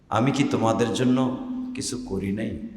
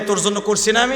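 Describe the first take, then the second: First: It is said in a tender, affectionate tone. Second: It is said in a harsh, scolding tone.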